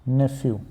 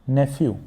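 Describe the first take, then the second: No difference in how they are said.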